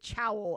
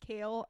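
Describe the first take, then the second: First: The name rhymes with 'cowl', starting with ch. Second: The name rhymes with 'kale', with a long a. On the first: This is how the speaker says it privately. "I'm still gonna pronounce it Chowl in my head" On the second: This is the pronunciation others insist is correct. "you can tell me Six Ways to Sunday that it's kale"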